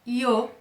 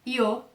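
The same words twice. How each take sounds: The two takes are said the same way.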